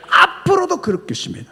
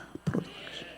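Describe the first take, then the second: First: Raised, louder proclamation; emphatic declaration. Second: Soft breathy whisper; whispered echo. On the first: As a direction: declare it boldly to the congregation. Preacher repeats, then whispers. (힘차게 선포하듯) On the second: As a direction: echo it in a hush. Repeated as a whisper. (속삭이듯 되뇌며) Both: Real, not acted.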